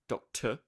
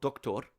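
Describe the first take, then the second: First: The last syllable has a reduced schwa vowel. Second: The last syllable has a full, unreduced vowel. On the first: The speaker calls it right. "there it is" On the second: The speaker calls it wrong. "they'll either upgrade it to a full vowel"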